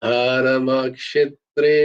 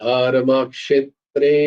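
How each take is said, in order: The two takes are said the same way.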